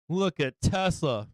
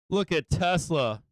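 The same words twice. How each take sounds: The two takes are said the same way.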